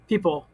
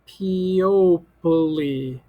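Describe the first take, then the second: First: The word is said in its ordinary way. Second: Every letter is sounded out as spelled. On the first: It is the real everyday word. The speaker calls it right. "That's people" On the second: It is a trick for remembering the spelling. The speaker calls it wrong. "if I want to say it funny, that means I'm going to read every letter and the way that it looks"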